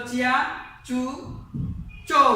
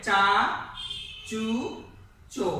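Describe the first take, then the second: First: চিয়া as chi-ya, then চু, চো; two-sound chi-ya on চিয়া, followed by চু, চো; expected but wrong pronunciation. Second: চা, চু, চো each one full syllable; heavy, drawn single beats on চা, চু, চো; thick pronunciation. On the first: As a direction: split চিয়া with an i glide. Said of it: "উচ্চারণ কিন্তু হওয়ার কথা ছিল". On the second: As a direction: give চা, চু, চো a broad sound, no i glide. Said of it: "মোটা করে উচ্চারণ করতে হবে". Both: Shown as a demonstration.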